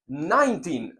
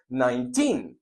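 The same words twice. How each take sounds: First: The stress is on the first syllable. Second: The stress is on the last syllable. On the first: The speaker calls it wrong. "no se dice diecinueve, no" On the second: The speaker calls it right. "se dice diecinueve, porque el tin será la fuerza en la pronunciación"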